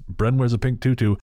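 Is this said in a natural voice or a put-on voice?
natural. It is said in a plain, natural speaking voice.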